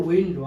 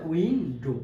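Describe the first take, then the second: First: Said in the usual way. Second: উইন্ডো split into উইন and ডো; two separate beats on উইন্ডো; syllable by syllable. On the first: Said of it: "তাহলে কি হয়ে যাবে". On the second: Shown as a demonstration. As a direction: leave a gap inside উইন্ডো. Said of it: "ভাগ ভাগ করে উচ্চারণ".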